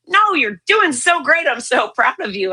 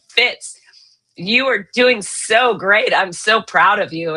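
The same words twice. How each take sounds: First: A higher, emphatic retelling of the doctor's praise, leaning on the opening no; the doctor won't take no, so push the no up high; insistent cheery praise. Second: Cheery doctor praise. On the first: Oncologist insisting to a bald, gray patient, higher and emphatic. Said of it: "He goes". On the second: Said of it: "he goes". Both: Retold or imitated.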